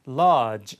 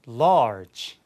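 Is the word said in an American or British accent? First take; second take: British; American. First: It is said in a British accent. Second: It is said in an American accent.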